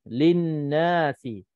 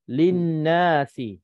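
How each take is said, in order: Both takes have the same delivery.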